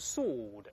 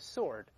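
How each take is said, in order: First: It is said with a British pronunciation. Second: It is said with an American pronunciation. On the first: "或者英文读成sword" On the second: "或美国人读成sword"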